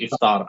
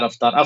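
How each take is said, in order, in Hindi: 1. शब्द एक 'i' स्वर से शुरू होता है। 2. शब्द एक 'a' स्वर से शुरू होता है। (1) "इफ्तार सही लफ्ज़" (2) "अफ़्तार भी मूसी साहब गलत है"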